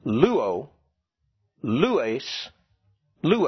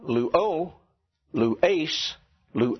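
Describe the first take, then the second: First: Luo, lues, lue stressed LU-o, LU-es, LU-e; stress on first syllable. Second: Luo, lues, lue stressed on the ending: lu-O, lu-ES, lu-E; slow, push the last syllable of luo, lues, lue; stress on second syllable. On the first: Teacher correcting the class, first-syllable stress on luo, lues, lue. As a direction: punch LU in luo, lues, lue, letting the ending fall. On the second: Teacher showing the class the mistake, final-syllable stress on luo, lues, lue. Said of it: "whether they're stressing the right syllable". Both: Shown as a demonstration.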